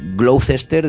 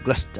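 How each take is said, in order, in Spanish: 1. Se lee con pronunciación española. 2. Se dice con acento inglés británico. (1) "diríamos en castellano" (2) "los ingleses dicen Gloucester, así con ese acento británico que tienen"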